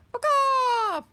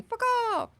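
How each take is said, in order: First: Said in the usual way. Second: Fuck off squawked much higher like a crow. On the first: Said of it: "Imagine there's, like, a, a crow going". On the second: Retold or imitated. Imitating a crow telling everyone to leave, high squawk. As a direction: caw the words like an angry crow. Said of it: "a crow going".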